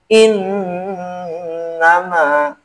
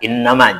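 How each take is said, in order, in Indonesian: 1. Bunyi sengau n ditekan dan ditahan panjang. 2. Bunyi sengau n hanya disentuh sebentar. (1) "harus ditasdidkan, harus ditekan gitu" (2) "Jangan innama, jangan. asal nempel"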